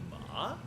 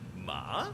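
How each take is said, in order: First: The pitch rises steadily upward. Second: The pitch dips down, then rises again. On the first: "It goes up like ma" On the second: "it does a little dip and then rises"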